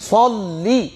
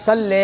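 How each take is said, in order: First: The word ends with an 'ee' vowel. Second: The word ends with an 'ay' vowel. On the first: The speaker calls it right. "लाम जेर ले नहीं है बल्कि लाम जेर ली" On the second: The speaker calls it wrong. "अमूमन हमारे यहाँ मौजूद तरीका"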